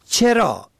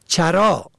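First: چرا said as chera, e first; kasra on first letter. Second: چرا said as chara, a first; fatha on first letter. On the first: Teacher contrasting homographs, chera with kasra. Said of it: "به کسر اول". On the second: Teacher contrasting homographs, chara with fatha. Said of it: "به فتح اول". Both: Shown as a demonstration.

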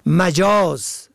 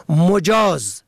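First: مجاز said as majaz, a first; fatha on first letter. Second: مجاز said slowly as mojaz, o first; damma on first letter. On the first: Teacher contrasting homographs, majaz with fatha. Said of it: "به فتح اول". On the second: Teacher contrasting homographs, mojaz with damma. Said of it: "به ضم اول". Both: Shown as a demonstration.

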